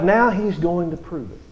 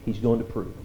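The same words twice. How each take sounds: First: Said in the usual way. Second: Softer, lower repeat of the line; quiet emphatic echo of the point. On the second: Shown as a demonstration. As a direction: let the repeat drop to a near hush. Preacher repeats a key line.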